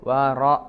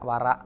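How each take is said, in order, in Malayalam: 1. r കനമുള്ളതും നിറഞ്ഞതുമാണ്. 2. r ലഘുവും പരന്നതുമാണ്. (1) "തഫ്ഖീം റ" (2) "മലയാളത്തിൽ പറയുന്ന റ എന്ന് പരത്തിയിട്ട് പറയാതെ റ വറ അല്ല"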